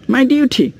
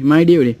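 First: It is said in a British accent. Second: It is said in an American accent.

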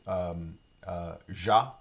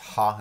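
First: The word begins with a soft zh sound. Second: The word begins with a breathy h sound. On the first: "sometimes pronounced ja" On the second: "Sometimes pronounced ha in the region where I'm from in Louisiana"

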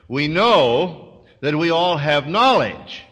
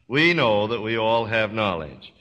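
First: It is read with an ironic, knowing tone. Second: It is read plainly, as a straight statement. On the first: Something beyond knowledge is needed. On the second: All of us simply have knowledge.

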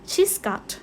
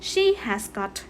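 First: 'Has' is shortened and joined onto 'she'. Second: 'Has' is said as a separate full word. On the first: "ใช้เป็นตัวย่อแบบนี้ก็ได้ออกเสียงว่า" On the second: "หล่อนมีนะคะ"

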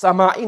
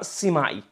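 First: The first vowel is an open 'a' sound. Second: The first vowel is a front 'i' sound. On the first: The speaker calls it right. "This word is pronounced Sama'i" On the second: The speaker calls it wrong. "Some people pronounce it with a kasra Sima'i. That's not correct"

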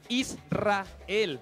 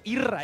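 First: The name is said in full, every sound kept. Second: The name is clipped, with its ending dropped. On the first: The speaker calls it right. "es Israel" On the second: The speaker calls it wrong. "no es Irra"

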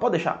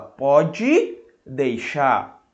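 First: Some sounds are dropped, giving a clipped phrase. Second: Every sound is said, giving the full phrase. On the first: "quando alguém fala" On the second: "Ele não fala pode deixar"

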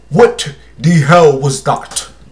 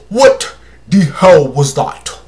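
First: It is said in the speaker's usual accent. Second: It is said in a put-on African accent.

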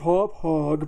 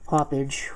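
First: The word ends with a 'hog' sound. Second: The word ends with a 'page' sound. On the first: This is how other people say it is pronounced. The speaker calls it wrong. "People say it's pronounced hop hog, but I think that sounds stupid" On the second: This is the speaker's own preferred pronunciation. The speaker calls it right. "we'll pronounce it, you know, like the way the English language works"

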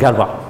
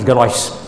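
First: The final consonant of the name is silent. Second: The final consonant of the name is sounded. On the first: The speaker calls it right. "the French have a tendency to ignore lots of consonants. So it's pronounced Galois" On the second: The speaker calls it wrong. "of course I pronounced it Galois"

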